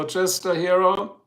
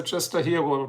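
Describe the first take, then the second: First: "Hero" said the English way, HAIR-oh; English-style "Chester Hero", slow and careful; English pronunciation. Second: "Hero" said the German way, HEE-ro with a throaty r; German-style "Chester Hero", uvular r; "Chester Hero" pronounced as German; German pronunciation. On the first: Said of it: "I hope I said that right". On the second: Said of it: "Do I pronounce it German?". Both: Shown as a demonstration.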